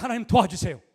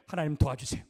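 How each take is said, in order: First: "하나님, 도와주세요" cried out louder, stress on "하나님"; urgent loud prayer; loud plea. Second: Said in the usual way. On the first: Shown as a demonstration. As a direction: call out "하나님, 도와주세요" with force. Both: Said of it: "그때 딱 기도해".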